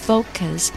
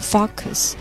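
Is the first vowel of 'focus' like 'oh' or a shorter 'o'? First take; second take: oh; shorter o. First: The first vowel is a gliding 'oh' sound. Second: The first vowel is a short, plain o. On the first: The speaker calls it right. "注意保证是O 的音" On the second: The speaker calls it wrong. "有的同学可能会把这个O 发成O 的音，变成Focus 不好听"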